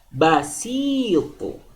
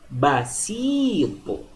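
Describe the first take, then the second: First: The middle vowel is held long. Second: The middle vowel is held long.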